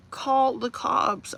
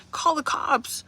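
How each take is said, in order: First: Very slow, each word spelled out; slow emphatic repeat. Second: Higher, insistent order to viewers; urging viewers to act, pitched up; exasperated command. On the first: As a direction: drag it out to drive the point home. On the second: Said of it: "What are you doing". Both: Real, not acted.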